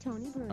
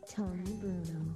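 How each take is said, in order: First: It is said very fast. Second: It is said at a normal speed.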